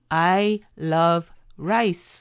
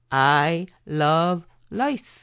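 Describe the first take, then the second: First: Rice begins with an English R sound. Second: Rice begins with an L-like sound. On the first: It says the speaker loves rice. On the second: It says the speaker loves lice.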